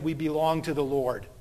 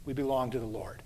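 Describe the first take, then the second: First: Said in the usual way. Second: Softer and lower, settling it; soft, low closing line. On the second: Shown as a demonstration. Pastor closing to congregation, softer and lower. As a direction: let it sink in gently.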